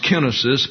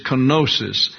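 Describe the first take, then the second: First: Kenosis said KEN-uh-sis; correct Greek pronunciation. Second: Kenosis said kuh-NO-sis; popular pronunciation. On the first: Bible teacher correcting the term, kenosis as KEN-uh-sis. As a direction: stress the first syllable of kenosis, KEN. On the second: Bible teacher gives the Greek term, kenosis as kuh-NO-sis. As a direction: stress the second syllable of kenosis, NO. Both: Shown as a demonstration. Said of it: "actually pronounced kenosis".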